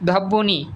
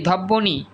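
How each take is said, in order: First: A doubled 'b' sound is heard after the first consonant. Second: A doubled 'b' sound is heard after the first consonant.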